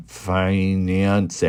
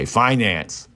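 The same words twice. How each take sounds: First: "Finance" stretched slowly, syllable by syllable on a level pitch; slow sounding-out. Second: "Finance" said briskly as one word, falling at the end; quick confident mispronunciation. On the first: Answering how do you say that, slow sounding-out. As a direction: sound out "Finance" with long, drawn vowels. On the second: [name] settles on a word for fiancé, quick mispronunciation. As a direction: settle on "Finance" in place of fiancé, without stretching it. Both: Shown as a demonstration. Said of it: "How do you say that?".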